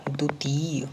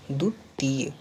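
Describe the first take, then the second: No difference in how they are said.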